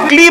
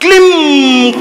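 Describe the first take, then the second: First: The word ends on a plain vowel, no nasal. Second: The word ends with a nasal m sound. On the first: The speaker calls it wrong. "अनुस्वार कहां लगाया" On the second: The speaker calls it right. "वो अंग की बिंदी कहां लगी"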